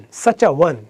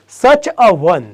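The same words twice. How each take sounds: First: Said in the usual way. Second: "such a one" with each word separate. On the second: Shown as a demonstration. Teacher demonstrating the article before one, "such a one" word by word. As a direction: say such, a, one distinctly, stretched slightly. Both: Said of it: "વન વ્યંજન ઉચ્ચાર થાય છે".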